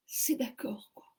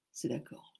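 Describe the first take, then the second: First: Whispered disbelief. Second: Low mock voice. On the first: Real, not acted. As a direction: breathe it in amazement. (chuchoté, incrédule, « c'est d'accord ») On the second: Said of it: "il me dit".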